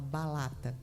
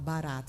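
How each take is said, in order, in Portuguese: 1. A consoante do meio é um som de L. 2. A consoante do meio é um R simples (tepe). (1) "e fala balata" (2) "Não fala barata"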